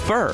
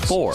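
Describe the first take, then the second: First: The middle syllable sounds like fur. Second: The middle syllable sounds like four. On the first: The speaker calls it right. "It's fur" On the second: The speaker calls it wrong. "not four"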